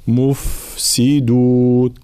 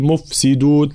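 First: "مفسدون" very slowly, f streaming on; flowing fa. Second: "مفسدون" with a short f, quickly passed; clipped fa mistake. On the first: Teacher showing softness of fa, "مفسدون" with long f. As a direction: prolong the "ف" in "مفسدون". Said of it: "نفس الملاحظة في حرف الفاء". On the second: Teacher showing what to avoid, "مفسدون" with short f. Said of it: "لا نقول". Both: Shown as a demonstration.

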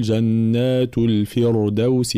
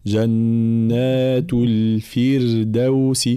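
First: الفردوس wrongly said with a thick, dark r; slow recitation, thicken the ر in الفردوس; heavy ra. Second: Very slow chant, الفردوس with a thin, light r. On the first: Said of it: "فحكمها الترقيق، فلا نقول". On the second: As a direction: draw out جنات الفردوس, keeping the ر light after "fi". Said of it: "فحكمها الترقيق". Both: Shown as a demonstration.

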